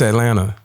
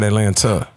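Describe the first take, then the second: First: The word is said without a T sound. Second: The word is said with a clear T sound. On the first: This is how Southern speakers say it. "So it's A L A N N A. There's no T" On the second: This is how non-Southern speakers say it. "not Atlanta"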